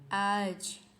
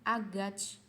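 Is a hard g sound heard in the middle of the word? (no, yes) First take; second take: no; yes. First: No g; the first vowel is lengthened instead. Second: A hard g is pronounced in the middle. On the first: The speaker calls it right. "dia nggak dibaca huruf G ... lebih panjang" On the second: The speaker calls it wrong. "dibacanya bukan agach"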